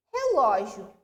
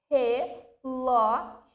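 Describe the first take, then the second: First: Said in the usual way. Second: "Relógio" slowly split as re, ló, gi, o; syllable by syllable. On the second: Shown as a demonstration. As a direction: break "Relógio" into four spaced syllables. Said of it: "separando em sílaba".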